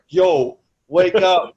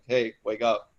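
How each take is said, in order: First: It is said as a harsh smack. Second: It is said as a gentle nudge.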